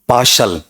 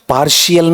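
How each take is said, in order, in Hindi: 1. इसका उच्चारण दो अक्षरों में होता है, par-shal। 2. इसका उच्चारण तीन अक्षरों में होता है, par-shee-al। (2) "पार्शियल नहीं होता है"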